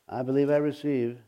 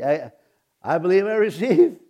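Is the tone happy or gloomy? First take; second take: gloomy; happy. First: It is said in a gloomy, unconvincing tone. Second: It is said in a happy, confident tone.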